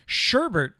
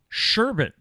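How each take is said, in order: First: The last syllable has an R sound. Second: The last syllable has no R sound. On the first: The speaker calls it wrong. "I did it wrong" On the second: The speaker calls it right. "Sherbet has no R at the end"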